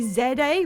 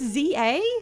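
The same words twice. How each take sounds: First: The letter Z is said the British way. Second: The letter Z is said the American way. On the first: "we'd have to say Z A like morons" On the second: "is what Americans would say"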